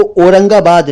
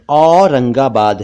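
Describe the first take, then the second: First: "औरंगाबाद" mispronounced "orangabad", closed o; wrong o vowel. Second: "औरंगाबाद" slowly, open au; correct au vowel. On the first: Teacher rejects wrong city name, o sound. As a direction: start "औरंगाबाद" with "oh". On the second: Teacher corrects city name, slow au sound. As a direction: say "औरंगाबाद" as "aww-rangabad". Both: Shown as a demonstration. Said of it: "औरंगाबाद नहीं है".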